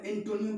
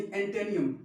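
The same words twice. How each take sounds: First: एंटोनियम with an "o" middle, en-TO-niyom; wrong pronunciation. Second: एंटेनियम with an "e" middle, en-TAY-niyom; corrected pronunciation. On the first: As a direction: say एंटोनियम with a round "toh". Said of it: "नहीं, एंटेनियम". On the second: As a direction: say एंटेनियम with "tay" in place of "toh". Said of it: "एंटोनियम पढ़ते हैं". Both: Shown as a demonstration.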